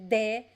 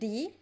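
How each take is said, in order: First: It starts with a plain d and an 'eh' vowel. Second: It starts with a plain d and an 'ee' vowel. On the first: This is one regional variant. "Some people would say de" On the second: This is another regional variant. "some people would say di"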